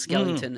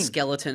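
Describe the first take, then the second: First: It is said with an extra syllable, skellington. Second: It is said as the normal word skeleton. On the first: The speaker calls it wrong. "mis sort of pronounced" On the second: The speaker calls it right. "the word skeleton"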